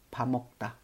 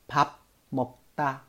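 First: The first syllable ends in an m sound. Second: The first syllable ends in a b sound. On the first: "所以连起来就是밥먹다" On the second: "分开来读是这样子的"

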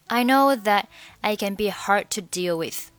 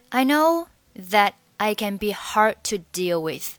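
The two takes are said the same way.

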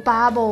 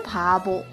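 First: The word begins with a voiced b sound. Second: The word begins with an unvoiced p sound. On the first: The speaker calls it wrong. "不读bubble 啊" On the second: The speaker calls it right. "应该是pubble"

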